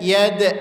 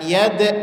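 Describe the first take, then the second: The two takes are said the same way.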